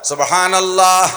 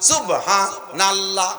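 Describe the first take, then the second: First: It flows as one word without a break. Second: It breaks after 'subha' before 'nallah'. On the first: The speaker calls it right. "Clear জিকির" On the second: The speaker calls it wrong. "সুবহা কয়ে থামিয়ে যায়"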